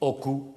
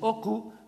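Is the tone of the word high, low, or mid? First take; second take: low; high. First: The word is said on a low tone. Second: The word is said on a high tone. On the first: It means a wound. "sur un ton bas" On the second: It means the trap. "sur un ton haut"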